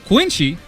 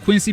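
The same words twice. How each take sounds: First: The name has a Japanese-style 'shi' sound. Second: The name has a plain English 's' sound. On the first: "how I pronounce it because this is how I've heard it my entire life. This is how the Japanese say it" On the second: "I should be saying Quincy because I'm speaking uh, English"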